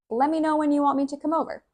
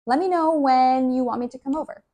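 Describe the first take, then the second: First: High and very fast, "Let me" slurred to "lemme"; rapid, blurred casual delivery; very fast natural speech. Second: Fast, run-together "Let me"; brisk, natural native pace; quick casual speech. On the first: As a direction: rush it out like a native speaker. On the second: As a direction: rattle it off like everyday talk. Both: Shown as a demonstration.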